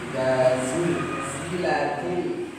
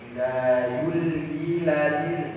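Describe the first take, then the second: First: The consonant is a clear buzzing z sound. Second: The consonant is a gliding y sound. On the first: The speaker calls it right. "kan harusnya zul zul, dia terlihat jelas" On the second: The speaker calls it wrong. "kesalahannya adalah eh, huruf Z ini nanti seperti huruf ya"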